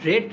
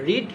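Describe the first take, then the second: First: The vowel is short, like 'red'. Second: The vowel is long, like 'reed'. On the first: It is the past form. "Pronunciation একটু different" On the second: It is the present form. "Pronunciation একটু different"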